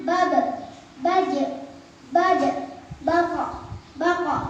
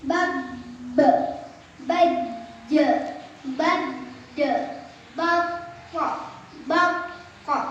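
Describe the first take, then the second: First: Bab, baj, bad with a short bounce on the final consonant; bouncing qalqalah. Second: Bab, baj, bad held on a doubled consonant, then released with a bounce; qalqalah with tasydid. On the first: Teacher showing qalqalah examples, bouncing each final letter. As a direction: let the endings of bab and bako bounce briefly. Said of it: "Qalqalah artinya mantul". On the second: Teacher showing tasydid examples, doubled endings held before the bounce. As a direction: stop on the last consonant of bako, pause, then bounce it out. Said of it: "Contoh yang bertasydid".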